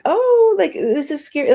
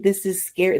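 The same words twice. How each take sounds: First: Imitating genuine fright. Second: Said in the usual way. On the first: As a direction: act out someone spooked by a story. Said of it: "when people are being genuine and they're like". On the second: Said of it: "they're not saying".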